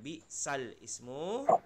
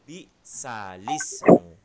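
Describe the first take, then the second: First: The words are said separately, with the alif vowel kept. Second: The words are linked, with the vowel moved onto lam. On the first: The speaker calls it wrong. "Jadi bukan bi sal ismu" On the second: The speaker calls it right. "akan tetapi menjadi bi salismu"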